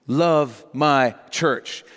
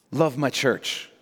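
First: "Love my church" very slow, each word set apart; weight and a pause on each of "Love", "my", "church"; word-by-word emphasis. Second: Said in the usual way. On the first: Acted. Jesus instructing his disciples, word-by-word emphasis. Same command repeated word by word.

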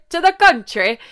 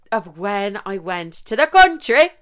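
First: A lightly put-on Irish country accent, pitched up; attempted Irish country accent. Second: Said in the usual way. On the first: Shown as a demonstration. Mocking herself as she tries a rural Irish accent. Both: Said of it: "Sorry, what accent was that?".

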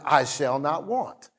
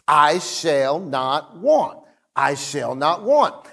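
First: Softer, murmured to himself; soft self-recital. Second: Slow and deliberate, leaning on each word; slow repetition. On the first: Pastor repeating the verse to himself at home. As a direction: say it quietly like a private reminder. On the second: Pastor repeating the verse to himself in his car. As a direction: repeat it slowly like a mantra. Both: Retold or imitated. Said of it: "saying it to myself".

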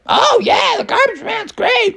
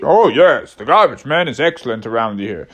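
First: Very high, squeaky chiming in; high-voiced bear. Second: Lower, swooping character voice; low-voiced bear. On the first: One bear agrees with the group about the garbage man, high-pitched voice. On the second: Another bear praises the garbage man, lower swooping voice. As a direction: agree in a lower, wavering bear voice. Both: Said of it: "they're all like".

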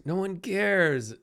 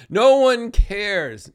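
First: Slow, softer "No one cares" with a fall; quiet echo of the first take; softer repeat. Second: Slow, loud, hammered NO one cares; drawn-out loud declaration; emphatic. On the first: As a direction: let "cares" drop gently. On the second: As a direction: punch "No" slowly and loudly. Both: Shown as a demonstration.

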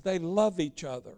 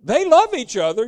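First: Low, soft, dismissive quote; imitating a mild, offhand justification, fading away; mock worldly church. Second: Loud, forceful echo with "love" leaping up in pitch; emphatic retort. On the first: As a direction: drop down low and quiet, as if excusing it. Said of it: "the worldly church will tell you". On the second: Real, not acted. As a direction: throw it back with a hard stress on "love". Preacher throws the quote back.

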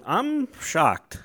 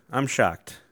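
First: High, exaggerated shock. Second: Said in the usual way. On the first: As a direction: gasp out the shock.

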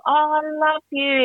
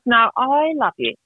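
First: High, drawn-out imitation of adoration; gushing supporter. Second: "I" drawn out and emphasised; stress on I. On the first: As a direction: gush like an adoring fan, stretching it out. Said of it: "she's, like, right into it". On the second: Retold or imitated. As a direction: lean slowly on "I", as opposed to someone else. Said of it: "My husband, he hates you".

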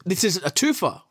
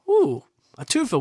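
First: Said in the usual way. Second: High, rising mock delight; gleeful ooh over a twofer. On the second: Real, not acted. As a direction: savour the word twofer like a treat.

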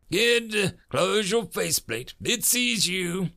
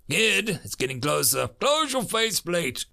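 First: High, urgent snap; snapped order. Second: Urgent mild shout, pitch climbing high; shouted warning. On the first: Major warning the kid that it sees him, snapping. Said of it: "the major snapped". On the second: Major warning the kid it's getting closer, mildly shouted. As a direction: raise the voice as the danger closes in. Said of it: "the major shouted". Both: A narrator's reading.

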